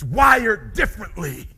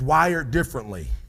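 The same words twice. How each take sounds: First: It is said forcefully with high energy. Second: It is said flatly with low energy. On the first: The speaker truly believes it. The speaker calls it right. "I'm gonna show you. Listen to me" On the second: The speaker does not really care. The speaker calls it wrong. "you just said it like you work a nine to five"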